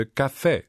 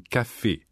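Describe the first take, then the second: First: Italian "Café" with open final e; Italian pronunciation. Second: French "Café" with closed final e; French pronunciation. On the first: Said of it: "auf das italienische". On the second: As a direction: say "Café" the French way, ending in a tight "ay". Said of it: "aus dem französischen". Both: Shown as a demonstration.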